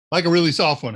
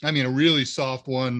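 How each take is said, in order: First: "really" leaned on and louder; stress on really. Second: Said in the usual way. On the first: Shown as a demonstration. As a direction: punch "really" harder. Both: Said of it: "How's that?".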